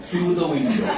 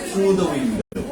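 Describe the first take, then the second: The two takes are said the same way.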